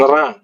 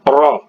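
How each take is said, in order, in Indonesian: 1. Bunyi ra diucapkan tipis dan ringan. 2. Bunyi ra diucapkan tebal dan berat. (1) "jangan ra" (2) "ra ini makhrajnya ditebalkan"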